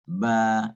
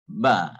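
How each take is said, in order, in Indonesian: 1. Vokalnya ditahan selama dua ketukan. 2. Vokalnya ditahan selama satu ketukan pendek. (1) "dua harakat lah" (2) "ba itu ialah satu huruf. Jadi satu huruf, satu harakat"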